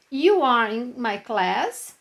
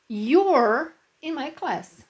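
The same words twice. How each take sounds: First: "You are" as two separate words, slow and clear; full form. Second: "You're" blended into one syllable, slow and clear; contraction. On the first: Teacher to class, showing the full form slowly. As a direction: spell out "You are" fully, word by word. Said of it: "Aí aqui a gente tem full form". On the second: Teacher to class, showing the contracted form slowly. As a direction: glide "You're" together as one sound. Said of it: "e as contractions". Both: Shown as a demonstration.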